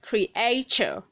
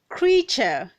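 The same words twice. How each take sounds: First: The word is said with three syllables. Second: The word is said with two syllables. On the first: The speaker calls it wrong. "not three syllables" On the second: The speaker calls it right. "This word has two syllables"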